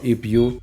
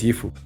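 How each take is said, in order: First: The two words are said clearly and separately. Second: The two words are run together into one. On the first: This is how the speaker herself says it. "si yo digo if you" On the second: This is how the other English speakers say it. "que tú digas ifu"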